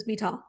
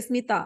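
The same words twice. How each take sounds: First: The t is a hard English-style t. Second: The t is a soft dental ta sound. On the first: The speaker calls it wrong. "I don't say Smita" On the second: The speaker calls it right. "But I say Smita"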